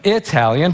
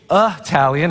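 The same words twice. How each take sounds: First: The first vowel is not an 'uh' sound. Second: The first vowel is a short 'uh' sound. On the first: The speaker calls it wrong. "instead of" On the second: The speaker calls it right. "it's more of a U H"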